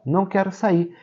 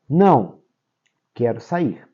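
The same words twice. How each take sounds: First: There is no pause after não. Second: There is a pause after não.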